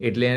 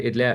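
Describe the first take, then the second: Both takes have the same delivery.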